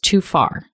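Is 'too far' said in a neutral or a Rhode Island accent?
neutral. Said in a neutral general American accent.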